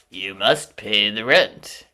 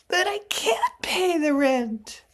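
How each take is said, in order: First: Slow, loud, sneering villain; sneering panto villain. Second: High, loud, pleading damsel; damsel in distress. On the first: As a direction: twirl the moustache and demand it. Melodrama villain demanding rent. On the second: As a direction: wail it like a helpless maiden. Melodrama heroine pleading. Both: Acted.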